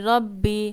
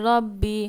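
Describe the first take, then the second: No difference in how they are said.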